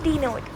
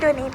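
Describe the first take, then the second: First: The word sounds like 'denote'. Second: The word sounds like 'donate'. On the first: The speaker calls it right. "It's डिनोट" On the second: The speaker calls it wrong. "मैं डोनेट कह देती हूँ बार बार"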